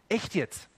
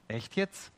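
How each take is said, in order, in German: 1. Es wird bestätigend gesagt. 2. Es wird zweifelnd, fragend gesagt. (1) "Man kann sie bestätigend sagen" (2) "Man kann sie zweifelnd sagen"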